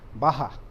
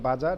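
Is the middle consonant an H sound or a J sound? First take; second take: H sound; J sound. First: The middle consonant is an H sound. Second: The middle consonant is a J sound. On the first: The speaker calls it right. "It is baha" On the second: The speaker calls it wrong. "So it is not baja. Don't be carried away with uh, our uh, Hindi baja"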